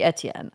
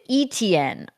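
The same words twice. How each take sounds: First: The name is said with a French pronunciation. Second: The name is said with an English pronunciation. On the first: This is the name's original French form. The speaker calls it right. "it has to be French. It has to be Etienne" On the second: This is how the broadcast says it. The speaker calls it wrong. "they pronounce it Etienne on here, which really irks me"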